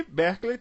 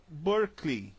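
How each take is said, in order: First: BERKELEY read as BEH-klay; wrong pronunciation. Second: BERKELEY as BUR-klee; American-style Berkeley, BUR-klee; right American pronunciation. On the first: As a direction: say Berkeley with open E and final 'lay'. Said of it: "também não fala Berkeley". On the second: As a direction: say Berkeley with English 'ur' and final 'klee'. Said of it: "fala Berkeley". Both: Shown as a demonstration.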